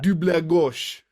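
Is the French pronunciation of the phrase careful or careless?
careful. It is said carefully with a cleaner French accent. The speaker calls it right. "That's better"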